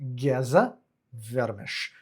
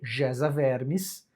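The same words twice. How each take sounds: First: The name follows its native Hungarian pronunciation. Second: The name is read the way it is spelled. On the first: The speaker calls it right. "mas pronuncia-se Geza Vermes" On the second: The speaker calls it wrong. "que se lê Geza Vermes"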